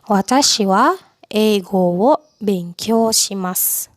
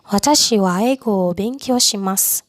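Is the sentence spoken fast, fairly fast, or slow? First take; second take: slow; fairly fast. First: The sentence is spoken slowly. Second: The sentence is spoken fairly fast. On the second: "Agak cepat"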